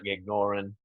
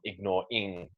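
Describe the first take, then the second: First: The final g is dropped, ending unstressed. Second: The final ing is fully said and stressed. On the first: The speaker calls it right. "dropping the G" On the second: The speaker calls it wrong. "it actually stressed the ing"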